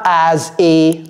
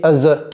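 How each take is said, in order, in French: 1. Les deux mots se disent séparément. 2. Les deux mots sont liés en douceur. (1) "C'est pas as a" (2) "c'est as a"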